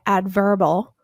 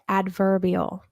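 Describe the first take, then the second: First: The 'ee' sound before 'al' is left out. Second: The 'ee' sound before 'al' is pronounced. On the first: The speaker calls it wrong. "you wouldn't say adverbal" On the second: The speaker calls it right. "you say adverbial"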